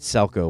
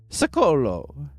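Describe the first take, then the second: First: The name is said as Selco. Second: The name is said as Secolo. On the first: The speaker calls it wrong. "I always called it Selco when I was younger" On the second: The speaker calls it right. "It's Secolo"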